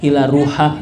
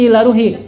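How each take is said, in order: First: The last word ends with an a vowel. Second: The last word ends with an i vowel. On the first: The ending is changed for a woman. The speaker calls it wrong. "giliran ahli kubur yang perempuan Fatimah itu ila ruha" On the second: The word follows a preposition. The speaker calls it right. "itu bacanya ila ruhi"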